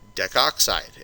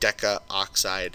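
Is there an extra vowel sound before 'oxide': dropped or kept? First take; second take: dropped; kept. First: The 'a' vowel before 'oxide' is dropped. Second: The 'a' vowel before 'oxide' is kept. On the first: The speaker calls it right. "common to drop the A" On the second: The speaker calls it wrong. "We don't say decaoxide"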